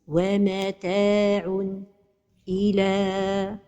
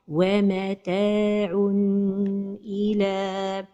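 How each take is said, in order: First: The voice stops briefly after the n. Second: The n sound is held too long. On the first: "c'est la pause" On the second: "c'est de prolonger son temps"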